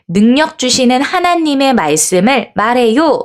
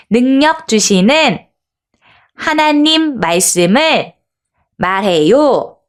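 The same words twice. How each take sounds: First: Said in the usual way. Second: Slow phrases with clear pauses between; distinct, deliberate reading. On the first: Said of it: "라고 적혀 있네요". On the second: Shown as a demonstration. Teacher reads together with children, slow and distinct. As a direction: read it phrase by phrase, every word distinct. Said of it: "또박또박 한번 읽어볼게요".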